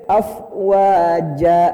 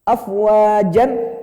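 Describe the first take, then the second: First: The word ends on a long a, no n. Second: The word ends with an n sound. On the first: The reader stops on this word. "kalau kita berhenti di situ jadi hakima" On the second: The reading continues without stopping. "Yang tadinya afwajan"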